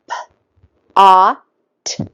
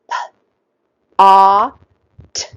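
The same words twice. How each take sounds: First: The sounds are said quickly. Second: The sounds are said slowly.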